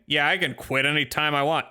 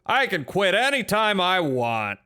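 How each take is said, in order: First: Said in the usual way. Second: Higher, slower, louder denial; defensive insistence. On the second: Acted. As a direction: protest a little too much. Repeating claim, more defensive.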